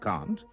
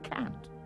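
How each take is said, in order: First: The vowel is a broad 'ah' sound. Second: The vowel is a flat 'a' sound. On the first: The speaker calls it right. "Instead of can't" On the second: The speaker calls it wrong. "they call it can't"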